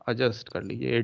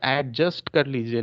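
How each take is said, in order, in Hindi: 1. j से पहले कोई d की आवाज़ नहीं आती। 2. j से पहले एक साफ़ d की आवाज़ आती है। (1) "डी नहीं बोला जाता" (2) "नहीं बोलना है"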